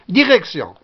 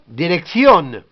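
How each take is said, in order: First: It is pronounced the French way. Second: It is pronounced the Spanish way. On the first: "Direction, en français" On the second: "en espagnol, direction"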